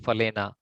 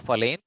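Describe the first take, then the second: First: The word ends with a full final vowel. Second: The word ends without a final vowel. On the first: This is the Sanskrit way of saying it. "when it comes to Sanskrit, it would be" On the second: This is the Hindi way of saying it. "from a Hindi perspective, it's okay to say"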